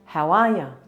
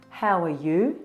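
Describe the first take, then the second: First: The last word is reduced to ya. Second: The last word is said fully as you.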